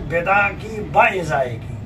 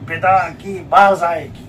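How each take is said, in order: First: The second word starts with separate syllables 'bi-i'. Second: The second word starts with a long 'baa'. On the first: The speaker calls it right. "सही इबारत है" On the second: The speaker calls it wrong. "आम तौर से लोग पढ़ते हैं"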